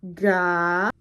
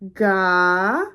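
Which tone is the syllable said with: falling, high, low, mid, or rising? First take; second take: rising; rising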